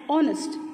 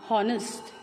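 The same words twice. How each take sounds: First: The word starts without an H sound. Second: The word starts with an audible H sound. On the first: The speaker calls it right. "H is silent in that word" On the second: The speaker calls it wrong. "and not honest"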